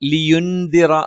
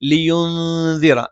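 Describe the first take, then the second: First: The n sound is pronounced clearly and fully. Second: The n sound is hidden and nasalized. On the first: The speaker calls it wrong. "ലിയുൻദിറ എന്ന് പറയുന്നതിന് പകരം" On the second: The speaker calls it right. "നൂനിനെ അവ്യക്തമാക്കണം, മണിച്ചുച്ചരിക്കണം"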